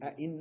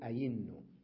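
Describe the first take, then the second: First: The second consonant is a glottal stop. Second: The second consonant is a y sound. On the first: "بدل أن أقول أئنّ" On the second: "أقلبها إلى ياء"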